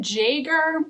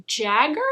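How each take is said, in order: First: "Jaeger" said YAY-ger, German style; second try "Jaeger", YAY-ger; Jaeger pronounced. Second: "Jagger" said like the singer, JAG-er; first try "Jagger", hard G, short a; Jagger pronounced. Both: Shown as a demonstration. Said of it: "is I think how you say his last name".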